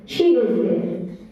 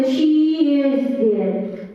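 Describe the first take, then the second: First: Said in the usual way. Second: She is there with SHE held long; wrongly stressed pronoun. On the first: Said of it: "we cannot say she is there". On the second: Shown as a demonstration. Teacher showing what we cannot say, she over-stressed. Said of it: "we cannot say".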